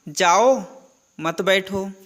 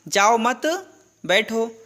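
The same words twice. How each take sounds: First: The pause comes after 'jao'. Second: The pause comes after 'mat'. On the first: The listener is told to leave, not sit. "यह comma है, मैंने सुना जाओ मत बैठो" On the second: The listener is asked to stay and sit. "उसने कहा कि जाओ मत, है ना, बैठो"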